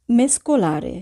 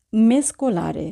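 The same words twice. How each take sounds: The two takes are said the same way.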